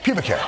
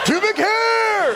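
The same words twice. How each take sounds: First: The phrase is said calmly and flatly. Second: The phrase is said with excited, exclaiming emphasis. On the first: The speaker calls it right. "that's the, the way, the inflection" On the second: The speaker calls it wrong.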